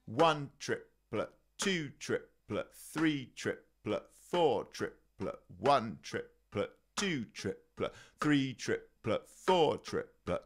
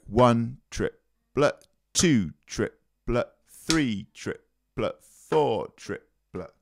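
First: One triplet, two triplet counted softly and slowly; quiet slow triplet count. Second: Slow triplet count. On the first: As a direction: murmur the triplets under the playing. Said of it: "I'll demonstrate that now". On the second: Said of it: "which you make as the upstroke". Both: Shown as a demonstration.

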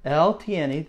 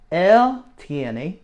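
First: Said in the usual way. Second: Él tiene said louder with a rising él; teacher models él tiene, stressing él, for students to echo; modelling the Spanish. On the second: Shown as a demonstration. Teacher models él tiene for the class to repeat, louder and rising. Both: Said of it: "say that with me".

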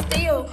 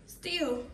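First: Loud emphatic still. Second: Said in the usual way. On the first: Real, not acted. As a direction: Still said much louder. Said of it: "repeats word louder". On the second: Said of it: "repeats word, second louder".

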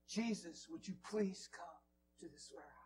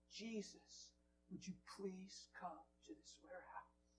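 First: A touch more voice, earnest plea; repeated prayer. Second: Soft pleading prayer; quoted prayer. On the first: Preacher re-voicing the lady's prayer, earnest. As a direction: say the prayer again, sincerely. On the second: HR lady praying for her warehouse, soft plea. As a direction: pray it gently, asking. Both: Retold or imitated. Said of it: "And I've been praying".

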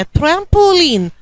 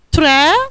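First: Said in the usual way. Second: "ترامبولين" broken into tram, po, leen with long pauses; syllable by syllable. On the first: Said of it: "الكلمة اللي جاية دي". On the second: Shown as a demonstration. Teacher shows pupil the syllables, "ترامبولين" beat by beat. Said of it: "انطقها الأول واحدة واحدة كده".

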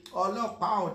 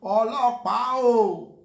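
First: Said in the usual way. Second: Loud, higher called-out Ọlọ́pàá o; mock catcall shout. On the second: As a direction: call Ọlọ́pàá o across the street, loud. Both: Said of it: "when they say".

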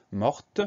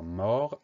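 First: MORTE with a sounded T at the end; audible final T. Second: MORT ending on the R, no T sound; silent final T. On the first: Teacher giving the feminine form, final T sounded. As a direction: let the T be heard closing "morte". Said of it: "et on entend le". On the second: Teacher showing pupils the spelling, silent final T. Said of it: "on a un T muet". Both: Shown as a demonstration.

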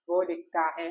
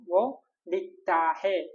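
First: Said in the usual way. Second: വോ ലിഖ്താ ഹേ said slowly, every syllable drawn out; slow model phrase. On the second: Shown as a demonstration. Teacher modelling the Hindi for he writes, slow. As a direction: stretch out വോ ലിഖ്താ ഹേ for learners. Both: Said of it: "ഇനി അവൻ എഴുതുന്നു".

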